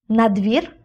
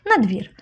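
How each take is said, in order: First: НА ДВІР lifted into a rising question; НА ДВІР as a short rising question; questioning echo. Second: НА ДВІР with a falling, final tune; НА ДВІР as a settled falling statement; firm confirmation. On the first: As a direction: ask НА ДВІР back in disbelief, voice rising at the end. Echoes her answer as question. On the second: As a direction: confirm НА ДВІР, voice dropping at the end. Confirms the questioned answer. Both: A narrator's reading.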